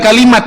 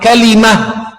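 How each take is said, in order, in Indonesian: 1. Kata itu berakhir dengan bunyi t. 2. Kata itu berakhir dengan bunyi h. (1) "Jadi bukan kalimat seharusnya" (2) "Seharusnya apa? Kalimah"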